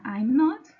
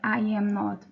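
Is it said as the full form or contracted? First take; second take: contracted; full. First: It is said with the first two words contracted. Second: It is said as three separate full words.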